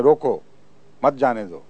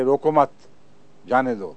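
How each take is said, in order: First: "روکو", clear break, then "مت جانے دو" together; pause after روکو. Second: "روکو مت" together, break, then "جانے دو"; pause after مت. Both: Shown as a demonstration. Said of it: "کوئی اس کا یہ ترجمہ بنا لے".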